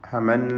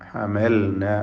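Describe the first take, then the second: First: The L merges into a doubled N sound. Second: The L is heard clearly before the N. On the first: The speaker calls it wrong. "നൂനിന് മുമ്പിൽ ഹമന്ന എന്നായി പോരുത്" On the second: The speaker calls it right. "ഹമൽന ലാമിൻ്റെ സുക്കൂൻ വെളിവാവണം"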